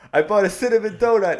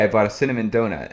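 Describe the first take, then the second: First: It is said in a put-on character voice. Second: It is said in a plain natural voice.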